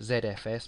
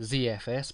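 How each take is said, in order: First: The Z is said as zed, British style. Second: The Z is said as zee, American style.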